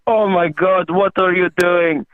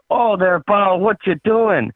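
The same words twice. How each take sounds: First: Put-on higher-pitched, alarmed Russian accent. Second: Put-on higher-pitched, alarmed Canadian accent. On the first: Russian guy freaks out at the shooting, Russian accent. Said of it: "That's a good Russian". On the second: Canadian freaks out at his drinking pal, Canadian accent. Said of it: "that's a pretty spot-on Canadian".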